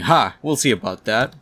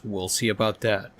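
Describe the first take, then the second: First: Loud triumphant "Ha!", then eager challenge; excited. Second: Said in the usual way. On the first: Acted. Doc Ock as the document prints, excited. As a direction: pounce on it with glee. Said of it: "Doc Ock gets excited". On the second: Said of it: "all Doctor Octopus says is".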